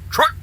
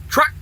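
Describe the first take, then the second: First: The word ends with a k sound. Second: The same.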